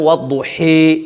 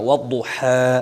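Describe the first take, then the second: First: The final vowel is bent fully toward i. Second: The final vowel is a fully open a. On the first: "এমালায় কোবরা বড় এমালা" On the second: "ফাতা সোজা পড়া"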